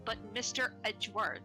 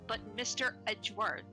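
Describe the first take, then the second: First: It is said like a sulky, edgy teenager. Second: The same.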